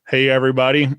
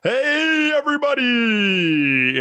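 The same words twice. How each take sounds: First: It is said at a normal length. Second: It is stretched out and exaggerated.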